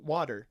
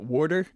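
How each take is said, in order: First: It is said with a West Coast accent. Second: It is said with a New Jersey accent. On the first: "they say water?" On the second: "in Jersey, ... we pronounce it water"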